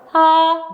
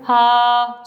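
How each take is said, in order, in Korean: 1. 이 소리는 음이 높아요. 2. 이 소리는 음이 낮아요. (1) "혀의 앞쪽에 힘을 주면서 소리를 내면 하 높은 음" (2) "혀의 안쪽 근육에 힘을 주면서 소리를 내면 하 저음"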